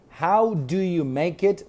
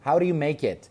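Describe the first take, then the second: First: Each word is said fully and separately. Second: The first words are reduced and run together.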